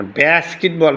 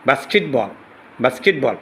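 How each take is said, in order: First: বাস্কেটবল with a front "bae" vowel; American pronunciation. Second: বাস্কেটবল with an open "baa"; British pronunciation. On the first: Teacher contrasts two accents for students, American pronunciation. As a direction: say বাস্কেটবল as "baes-kit-bol". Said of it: "ব্যা, বাস্কেটবল বলে". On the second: Teacher contrasts two accents for students, British pronunciation. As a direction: say বাস্কেটবল as "baas-kit-bol". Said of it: "বা উচ্চারণ করলে British". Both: Shown as a demonstration.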